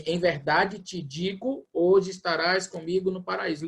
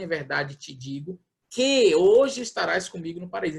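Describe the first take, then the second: First: Slow "Em verdade te digo", then "hoje estarás" without "que"; literal phrasing. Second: "que" drawn into "hoje" with emphasis, after "te digo"; inserted "que" highlighted. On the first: Showing the literal Greek text, measured "Em verdade te digo". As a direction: spell out "Em verdade te digo" slowly, then carry on. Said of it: "colocando a vírgula no lugar certo". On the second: Showing what translators put in, stress on "que hoje". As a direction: lean on "que hoje" as the added link. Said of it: "Eles colocam assim". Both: Shown as a demonstration.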